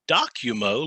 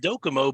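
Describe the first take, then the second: First: The start sounds like the word 'document'. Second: The start does not sound like 'document'. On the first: The speaker calls it right. "it's actually Documo, like a document" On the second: The speaker calls it wrong. "I've been saying Docomo"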